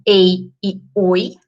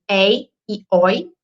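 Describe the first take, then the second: First: Ei e oi with closed vowels, êi and ôi; ditongo fechado. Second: Ei e oi with open vowels, éi and ói; ditongo aberto. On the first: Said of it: "e não ei e oi". (ei e oi com vogais fechadas, êi e ôi) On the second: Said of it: "eu pronuncio ei e oi". (ei e oi com vogais abertas, éi e ói) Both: Shown as a demonstration.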